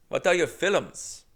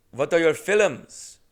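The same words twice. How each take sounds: First: Put-on slow, puzzled Indian-accented repeat; Indian accent impression. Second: Put-on slow, loud Indian-accented question; Indian accent impression. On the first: Comic echoing the clerk's question in Indian accent. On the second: Clerk asking about his films, slow Indian accent. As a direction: lean into the Indian accent, drawn out. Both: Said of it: "unfortunately, keep doing it".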